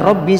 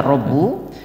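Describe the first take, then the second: First: The word ends with an 'i' vowel. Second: The word ends with a 'u' vowel. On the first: The word restates the preceding noun in apposition. "bisa dibaca Rabbi sebagai badal" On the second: The word is the subject starting a new sentence. "Bisa dibaca Rabbu sebagai mubtada"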